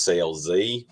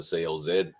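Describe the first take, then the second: First: The last letter is said the American way, 'zee'. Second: The last letter is said the Australian way, 'zed'.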